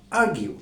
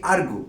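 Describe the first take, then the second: First: আর্গিউ as "AR-gyoo", with a y glide; standard pronunciation. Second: আর্গু as "AR-goo", no y sound; common mispronunciation. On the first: Teacher giving the correct version, standard pronunciation. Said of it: "standard pronunciation হলো আর্গিউ". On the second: Teacher showing what we normally say, common mispronunciation. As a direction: end আর্গু on a plain "goo". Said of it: "আমরা normally এই শব্দটিকে উচ্চারণ করি". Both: Shown as a demonstration.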